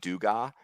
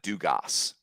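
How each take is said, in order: First: The final S sound is left silent. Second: The final S sound is clearly pronounced. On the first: The speaker calls it wrong. "I'm hearing people say" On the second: The speaker calls it right. "It's Gavin Dugas. Like you pronounce the S"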